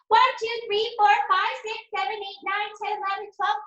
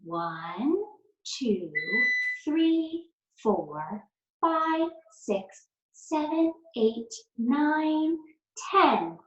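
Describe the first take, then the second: First: The numbers are counted quickly. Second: The numbers are counted slowly.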